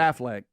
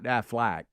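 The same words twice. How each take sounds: First: It sounds like the actor's usual surname. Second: It sounds like the insurance company's name. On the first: The speaker calls it right. "It's Affleck, right?" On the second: The speaker calls it wrong. "Not Affleck"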